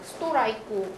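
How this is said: It is said with a Japanese accent. "일본어도 마찬가지죠. 스토라이크 뭐 이런 식으로 발음"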